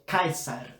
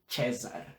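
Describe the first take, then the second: First: The name begins with a hard K sound. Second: The name begins with a soft S sound. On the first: This is how the classical pronunciation really was. The speaker calls it right. "é Caesar" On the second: This is not the classical pronunciation. The speaker calls it wrong. "ao invés de César"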